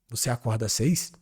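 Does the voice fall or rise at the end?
rises. The voice rises at the end. It asks a question.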